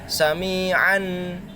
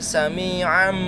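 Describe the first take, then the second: First: The word ends with a plain n sound. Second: The final n sound changes into an m. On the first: The speaker calls it wrong. "Jadi bukan sami'an" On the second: The speaker calls it right. "tapi sami'an basyira ke huruf mim"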